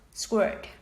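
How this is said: It is said with an American accent. "but in American English is sword"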